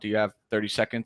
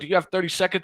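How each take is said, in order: First: The tone is flat, plain and unexcited. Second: The tone is lively, friendly and excited. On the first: The caller sounds routine, so the prospect hangs up. The speaker calls it wrong. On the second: The caller is having fun and sounds like a friend. The speaker calls it right.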